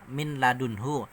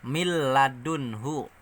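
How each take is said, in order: First: The n is clearly pronounced before the l. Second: The n merges fully into the following l. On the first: "Kalau tulisannya kan" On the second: "Jadi nunnya ini masuk langsung ke lam"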